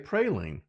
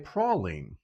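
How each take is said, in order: First: The word is pronounced the Texas way. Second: The word is pronounced the Louisiana way. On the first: "In Texas, we say" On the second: "if you're in Louisiana, you would say"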